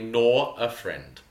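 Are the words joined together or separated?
separated. The words are separated from each other. The speaker calls it right. "It's got to be separated"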